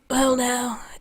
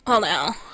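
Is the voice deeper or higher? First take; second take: higher; deeper. First: The voice is pitched higher. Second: The voice is pitched deeper. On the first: The speaker calls it wrong. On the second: The speaker calls it right.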